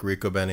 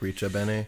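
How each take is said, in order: First: The consonant after 'Ri' is a hard 'k' sound. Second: The consonant after 'Ri' is a soft 'ch' sound. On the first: "instead of like Rico bene" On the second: "it'd be like Richa bene"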